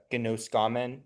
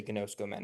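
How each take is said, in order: First: Gnoskamen with an open "ah" after the sk; gnoskamen, second O sounded short as "ah". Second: Gnoskomen with both O's said as "oh"; gnoskomen, no short "ah" in the middle; no O distinction. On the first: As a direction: say gnoskamen as gno-SKAH-men, short O opened up. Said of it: "to indicate a difference between the long O and the short O". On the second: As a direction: say gnoskomen as gno-SKO-men, same O twice. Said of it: "a lot of people make no distinction". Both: Shown as a demonstration.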